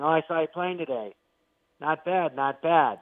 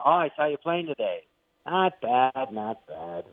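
First: The praise is delivered in a plain, sincere tone. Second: The praise is delivered in a grudging, reluctant tone. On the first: He openly compliments their playing. "that's how you'd normally do it" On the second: He grudgingly admits they are good. "reluctantly admits it"

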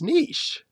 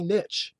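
First: The word is said in a French-style way. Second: The word is said the older English way. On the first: It is the reading people give when they think of French. "fancy ourselves knowing a little French... we look at it and we go, oh, it's niche" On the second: It is the original, formerly preferred reading. "it was originally niche"

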